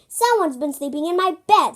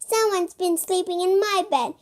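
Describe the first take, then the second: First: It is said in a big, deep voice. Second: It is said in a tiny, high voice. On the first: "in a great big voice" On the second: "in a teeny tiny voice"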